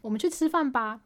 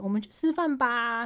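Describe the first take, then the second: First: It is said Tokyo-style, with a short ending. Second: It is said Nagoya-style, with a drawn-out ending.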